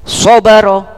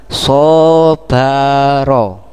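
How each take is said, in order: First: The word is said at normal speed. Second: The word is said slowly and drawn out.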